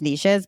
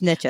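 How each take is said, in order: First: The word does not rhyme with riches. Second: The word rhymes with riches. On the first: "I kind of think it's niches, but that doesn't rhyme with riches" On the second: "So it's niches"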